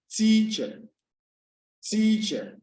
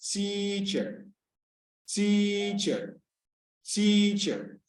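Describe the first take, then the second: First: Teacher with TEA pitched high, then dropping; high-pitched stress. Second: Teacher with a long drawn-out TEA; lengthened first syllable. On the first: Teacher shows pitch to class, TEA in teacher said high. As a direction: lift the first syllable of teacher high. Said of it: "if we are pronouncing it high". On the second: Teacher shows length to class, TEA in teacher held long. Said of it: "If it is longer". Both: Shown as a demonstration.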